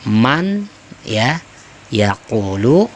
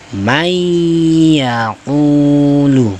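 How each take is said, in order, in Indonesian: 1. Bunyi n diucapkan dengan jelas sebelum y. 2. Bunyi n melebur menjadi y yang digandakan dan bersengau. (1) "Yang tadinya man" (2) "kita dobelkan, tasydidkan ya, tekan sedikit ya sehingga berdengung"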